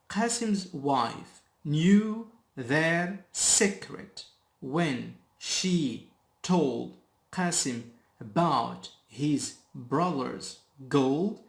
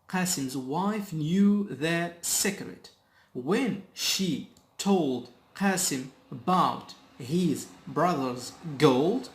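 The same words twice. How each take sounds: First: The sentence is read at a slow speed. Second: The sentence is read at a normal speed.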